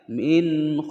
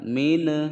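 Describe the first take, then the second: First: The final n is held clearly without a bounce. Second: The final n is released with a bounce. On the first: The speaker calls it right. "dibaca jelas tidak boleh dipantulkan" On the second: The speaker calls it wrong.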